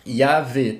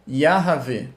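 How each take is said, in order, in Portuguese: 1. É falada rápido, sem vogal curta extra. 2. É falada devagar, com uma vogal curta extra. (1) "se eu falar mais rápido" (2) "se eu falar mais de, de, de, devagar"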